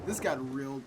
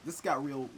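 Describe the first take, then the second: No difference in how they are said.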